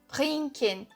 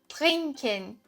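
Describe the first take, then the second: The two takes are said the same way.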